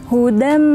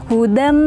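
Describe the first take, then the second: The two takes are said the same way.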